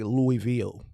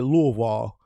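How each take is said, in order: First: It is said in the speaker's own accent. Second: It is said the way other people say it. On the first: "my accent gonna say Louisville, like a Louisville slugger" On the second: "I be hearing people say Louisville"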